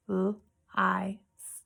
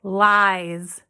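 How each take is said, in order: First: L-I-S as soft "lll", "eye", "sss", with pauses; sounded out. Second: Said in the usual way. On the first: Shown as a demonstration. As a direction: tap out L-I-S in three separate, softer sounds. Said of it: "we're gonna tap out the sounds". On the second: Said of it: "So let's try that again".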